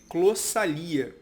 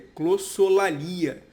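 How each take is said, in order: First: The word is said without the 'lo' syllable. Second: The word is said with the 'lo' syllable. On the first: The speaker calls it wrong. "eu falei clossalia" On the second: The speaker calls it right. "na verdade a pronúncia correta é clossolalia"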